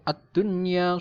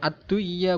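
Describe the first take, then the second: First: The n sound is pronounced clearly. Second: The n sound is merged and not heard. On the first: The speaker calls it right. "tetap dibaca jelas atau idhar" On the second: The speaker calls it wrong. "bukan ad-duya, bukan"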